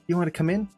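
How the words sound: The voice sounds worried and caring. The visitor is welcome and should come in. "There's worry in my face, and it's like, oh, I'm reaching out for them"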